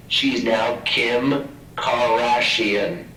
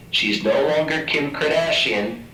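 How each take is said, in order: First: Kim Kardashian said slowly, stretched; drawn-out new name. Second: Said in the usual way. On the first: Shown as a demonstration. Lecturer renaming patient, slow mock pronunciation. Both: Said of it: "So I'm now gonna change her name".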